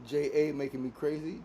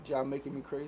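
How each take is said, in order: First: "J A" said as two separate letters; spelled-out letters. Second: "Ja" said as one syllable, jah; one-word reading. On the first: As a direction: say "J A" letter by letter, jay-ay. Sounding out a commenter's name. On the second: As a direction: say "Ja" as a single word rhyming with "ma". Second try at the name. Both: Shown as a demonstration.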